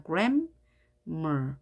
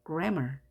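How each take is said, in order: First: "grammar" split as gram, mer; gram, a gap, then mer; syllable by syllable. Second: Said in the usual way. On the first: Shown as a demonstration. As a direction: read the halves of "grammar" separately. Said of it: "따로따로 읽습니다". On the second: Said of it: "하나만 읽기로 약속했죠?".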